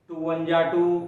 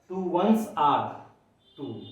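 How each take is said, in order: First: 'Ones are' is squeezed into a short 'ja'. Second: 'Ones are' is said fully as separate words. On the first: The speaker calls it wrong. "उसको short करते करते ऐसा कर दिया, वंजा वंजा कर दिया" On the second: The speaker calls it right. "ऐसा होता है"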